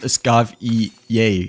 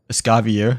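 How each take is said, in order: First: The ending is not said as spelled. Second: The ending is said as it is spelled. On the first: The speaker calls it right. "but it's pronounced as Escavier instead" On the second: The speaker calls it wrong. "we initially pronounced her as Escavier because of the F I E R"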